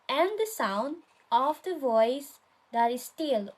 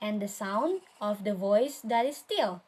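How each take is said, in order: First: "and the sound of the voice that is still" pitched up, in three groups; first reading option. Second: "and the sound of the voice that is still" pitched down, settling on STILL; weight SOUND, VOICE and STILL, falling to the end; second reading option. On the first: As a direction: lift "and the sound", "of the voice", "that is still" as separate units. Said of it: "how do we read it?". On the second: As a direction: give "and the sound of the voice that is still" as the settled, correct scansion. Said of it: "the second one". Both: Shown as a demonstration.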